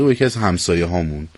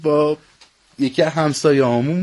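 First: It is said in a standard Persian accent. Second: It is said in an Isfahani accent.

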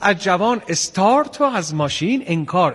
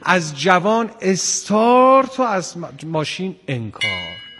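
First: The line is delivered lightly, as if pleasant. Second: The line is delivered with strain and effort. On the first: The situation seems enjoyable. The speaker calls it wrong. "انگار مثلا یه 13 به در فضا که دیدید و خیلی خوشاینده" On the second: The situation is a hard struggle. The speaker calls it right. "اون نشد و این اینجوری"

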